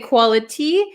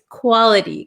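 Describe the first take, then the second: First: The T is a clear, released T sound. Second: The T is a quick flap sound. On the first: "we can say quality, but this T" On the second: "So this becomes a flap T"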